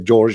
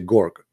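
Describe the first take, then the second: First: The word begins with a soft J sound. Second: The word begins with a hard G sound. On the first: This is the usual pronunciation. "You say George" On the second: This is how people in Egypt say it. "in Egypt, the letter J, they don't say J, they say"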